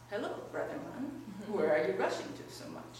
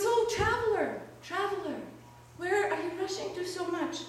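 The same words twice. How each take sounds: First: Lightly voiced wolf, lower-pitched; a hint of a low wolf voice; storybook wolf. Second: High-pitched, calling tree voice. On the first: Wolf greets a man walking through the forest, lightly voiced low. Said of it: "And the wolf says". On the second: Lonely tree to a man marching past, calling out. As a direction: call after a passer-by in a raised pitch. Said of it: "the tree calls out to him". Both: A narrator's reading.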